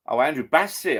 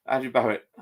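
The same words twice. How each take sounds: First: Bassett stressed as the correction, higher; landing on Bassett to fix the misread; realising the commenter's name is Bassett; name corrected. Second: Barrett read with a double r, a misreading; reading Barrett off the screen, first attempt; first misread of the commenter's name. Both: Real, not acted.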